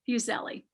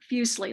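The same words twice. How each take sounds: First: The name is said not rhyming with muesli. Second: The name is said to rhyme with muesli. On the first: This is how some other people say it. "Some people, however, say it" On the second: This is the speaker's own way of saying it. "like muesli"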